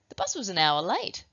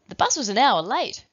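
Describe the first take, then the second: First: The sentence is said in a surprised tone. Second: The sentence is said in an excited tone.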